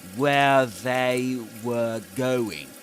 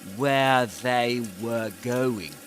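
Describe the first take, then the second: First: Each word is said separately and fully. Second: The same.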